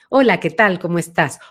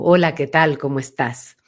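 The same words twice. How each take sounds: First: The voice has a medium, central timbre. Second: The voice resonates far back, sounding very deep.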